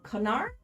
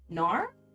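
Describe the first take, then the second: First: The word starts with a K sound. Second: The word starts without a K sound. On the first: "did I pronounce the K" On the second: "Isn't it just Nar?"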